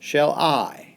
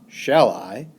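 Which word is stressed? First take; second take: I; shall. First: The stress falls on the word I. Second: The stress falls on the word shall. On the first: The speaker calls it right. "in the pattern unstressed, stressed" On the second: The speaker calls it wrong.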